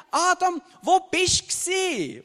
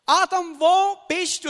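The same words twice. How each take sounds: First: High, slow, leaning on "wo", as in where were you; slow each word of "wo bist du gsi" into a reproach; accusing call. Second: High, louder call, a searching "wo bist du"; God calling out. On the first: God asks Adam where he was during the temptation, reproachful. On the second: God searching for Adam in the garden, calling out. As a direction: call his name, then ask "wo" with weight. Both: Acted. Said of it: "Oder man könnte doch auch sagen".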